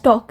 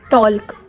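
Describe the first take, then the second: First: The L sound is left out of the word. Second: The L sound is pronounced in the word. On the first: The speaker calls it right. "So एल is silent" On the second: The speaker calls it wrong. "We don't say"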